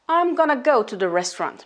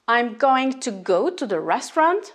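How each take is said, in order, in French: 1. 'Going to' se réduit à un seul mot, gonna. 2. 'Going to' se prononce en entier, en deux mots.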